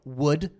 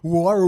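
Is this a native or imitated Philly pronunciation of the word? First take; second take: native; imitated. First: It is the speaker's own Philly pronunciation. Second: It is an outsider's imitation of Philly speech.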